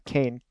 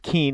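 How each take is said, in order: First: The vowel sounds like 'ay' in 'cane'. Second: The vowel sounds like 'ee' in 'seen'. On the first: The speaker calls it right. "but it is pronounced Kane" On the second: The speaker calls it wrong. "It looks like you want to pronounce it Keen"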